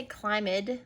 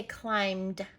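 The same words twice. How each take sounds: First: "climbed" misread as two syllables, CLIME-id; wrong two-syllable ED. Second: "climbed" in one syllable, ending in a d sound. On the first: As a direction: sound out the ED in "climbed" as a separate "id". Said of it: "We don't say climbed". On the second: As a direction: say "climbed" slowly as climd, no extra vowel. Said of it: "we say climbed". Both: Shown as a demonstration.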